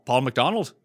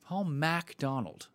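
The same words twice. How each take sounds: First: McDonald said "muh-DON-ald" with a quick schwa first syllable; misread name. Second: MacDonald said with a full "MACK" first syllable as in "mack"; corrected name. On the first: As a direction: say McDonald as "muhk-DON-ald", light unstressed first part. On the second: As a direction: say MacDonald as "MACK-donald", open a in the first part. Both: Shown as a demonstration. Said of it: "M A C".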